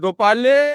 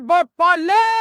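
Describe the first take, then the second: First: The name is called in a plain, standard way. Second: The name is called in a local village style. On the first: The speaker calls it wrong. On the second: The speaker calls it right.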